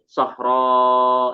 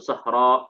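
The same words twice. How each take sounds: First: The word ends in a long, drawn-out vowel. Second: The word ends with a glottal stop. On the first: "dia akan dibaca panjang nggak berhenti" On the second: "alif yang kedua diubah menjadi hamzah untuk bisa berhenti"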